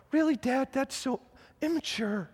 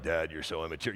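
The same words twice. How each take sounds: First: Put-on high, soft little-kid voice; small child primly scolding his dad; five-year-old son. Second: Very low, soft grown-son voice; deep, quiet teenage put-down; eighteen-year-old son. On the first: Five-year-old son to his joking dad, high childlike reproach. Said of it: "look at me as a five-year-old". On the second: Retold or imitated. Eighteen-year-old son to his dad, low deadpan reproach. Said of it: "he's, he's eighteen".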